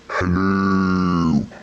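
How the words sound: It is said in a deep, Darth Vader-like voice.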